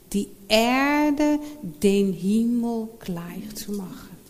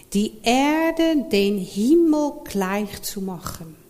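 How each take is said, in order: Both takes have the same delivery.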